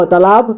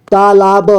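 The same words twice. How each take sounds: First: Said in the usual way. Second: "तालाब" split as taa-laa-ba; beginner's reading of "तालाब" as taa-laa-ba; sounded out letter by letter. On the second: Shown as a demonstration. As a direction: voice each syllable of "तालाब", final ba included. Teacher sounds out, then reads whole.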